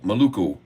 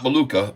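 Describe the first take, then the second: First: The final vowel is an 'oo' sound. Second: The final vowel is an 'ah' sound. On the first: The speaker calls it right. "we got to make sure we say it right" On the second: The speaker calls it wrong. "Not Maluka"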